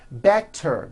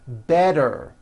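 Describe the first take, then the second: First: The middle consonant is a crisp t. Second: The middle consonant is a soft d.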